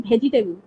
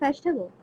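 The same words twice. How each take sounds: First: The word begins with an aspirated bh sound. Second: The word begins with a plain v sound. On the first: "That sounds like bha in my language" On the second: "I don't say vegetable"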